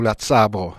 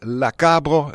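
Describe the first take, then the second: First: The word starts with a ts sound. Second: The word starts with a hard k sound. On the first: This is the local Vivaro-Alpine form. "ou « la tsabro »" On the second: This is the Provençal dialect form. "En Provence, par exemple, ils disent « la cabro »"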